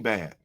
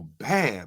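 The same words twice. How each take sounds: First: It is said in a disapproving, warning tone. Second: It is said in an admiring, approving tone. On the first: The thing is criticized as bad. "but it means two different things" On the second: The thing is praised as good. "We we know by my tone and my delivery, that's a good thing"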